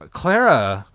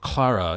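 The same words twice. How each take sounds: First: The name is said with an American pronunciation. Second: The name is said with a British pronunciation.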